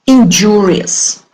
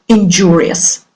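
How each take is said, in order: First: "Injurious" slow, stress on JU; stress on second syllable. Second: "injurious" with JU stressed; stress on second syllable. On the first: Teacher modelling the word for students, slow, second syllable stressed. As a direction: stretch it out and punch JU in "Injurious". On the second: Teacher repeating the word after the translation, second syllable stressed. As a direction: keep the weight on JU in "injurious". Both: Shown as a demonstration. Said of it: "The stress is on the second syllable".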